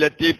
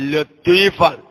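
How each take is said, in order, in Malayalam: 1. t ശബ്ദം കനമില്ലാത്ത, ലഘുവായ t ശബ്ദമാണ്. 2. t ശബ്ദം കനമുള്ള, ഭാരമുള്ള t ശബ്ദമാണ്. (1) "പലവരും ചെല്ലുമ്പോ ലത്തീഫ് ലത്തീഫ് ലത്തീഫ് എന്നാവാറുണ്ട്" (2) "ലാമിന്റെ ശേഷം പുല്ലില്ലാത്ത ത്വാ ആണ്"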